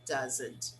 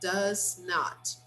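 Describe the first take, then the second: First: It is said as a shorter contracted form. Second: It is said as two full separate words.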